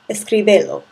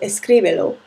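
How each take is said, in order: First: The stress is on the third syllable. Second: The stress is on the second syllable. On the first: The speaker calls it wrong. "which is not how escribe should sound" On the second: The speaker calls it right. "which matches the pronunciation of escribe"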